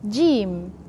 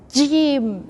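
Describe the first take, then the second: First: The first consonant is pressed moderately. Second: The first consonant is pressed too hard. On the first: The speaker calls it right. "Just in between" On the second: The speaker calls it wrong. "you press too much"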